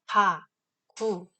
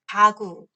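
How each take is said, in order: First: Said apart, the second g has a slight puff. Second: Said joined, the second g has no puff. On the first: "둘 다 어때요? 크 소리가 살짝 섞여 있죠" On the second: "이걸 붙여서 발음하면 ... 얘는 기식성이"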